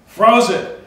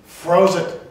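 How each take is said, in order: First: "Froze it." again, higher and louder, pressing on "Froze"; raised, louder repeat of "Froze it."; emphatic repeat. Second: Said in the usual way. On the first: Real, not acted. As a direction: punch "Froze" hard the second time.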